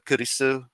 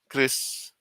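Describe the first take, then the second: First: It is three syllables, said the Japanese way. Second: It is one syllable, said the English way. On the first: "a sort of Japanese pronunciation of that" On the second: "my actual first name is Chris"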